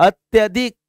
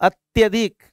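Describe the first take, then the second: The two takes are said the same way.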